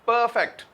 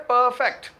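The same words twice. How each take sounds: The two takes are said the same way.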